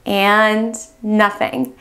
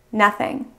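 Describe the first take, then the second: First: Slow dead nothing. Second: Said in the usual way. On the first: Pretend. The key turns again, drawn out slowly. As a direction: stretch And nothing out slowly, deflated. The car still will not start.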